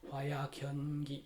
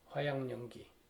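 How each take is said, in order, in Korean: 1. 둘째 음절은 k 소리로 끝나요. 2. 둘째 음절은 ng 소리로 끝나요. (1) "화약연기 이렇게 발음을 해요" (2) "이걸 그냥 발음하면 화양 연기가 돼요"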